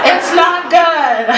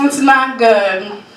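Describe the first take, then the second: First: High, very drawn-out warning; exaggerated warning. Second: Slow repeat at ordinary pitch; understated warning. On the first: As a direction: stretch it out high for the crowd. Punchline, then repeated low. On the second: Acted. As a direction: repeat it slowly, bringing it down. Quieter repeat of the punchline.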